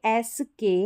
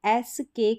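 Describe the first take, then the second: Both takes have the same delivery.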